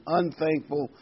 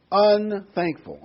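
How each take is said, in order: First: Said in the usual way. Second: Unthankful drawn out slowly, louder and higher; unthankful stretched out and loud; stress on unthankful. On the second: Shown as a demonstration. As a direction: lean hard on unthankful, slow and loud. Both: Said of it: "I emphasize that word".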